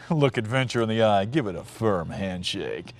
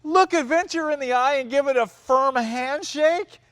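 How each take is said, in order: First: Low mock ad narrator, slowing down; big dramatic voice. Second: High-pitched, scoffing disbelief; incredulous mocking quote. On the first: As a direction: intone the slogan deep and solemn. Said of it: "you got this big dramatic voice". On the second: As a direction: throw the slogan back as an outraged question. Mocks the line in disbelief.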